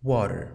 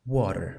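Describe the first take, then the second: No difference in how they are said.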